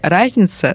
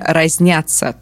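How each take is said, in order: First: The stress is on the first syllable. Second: The stress is on the second syllable. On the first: The speaker calls it right. "ударение падает на «а»" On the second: The speaker calls it wrong. "это неправильно"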